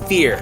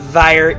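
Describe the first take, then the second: First: The word rhymes with 'fear'. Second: The word rhymes with 'fire'. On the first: The speaker calls it right. "that's the way this card is pronounced" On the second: The speaker calls it wrong. "It's not Vire"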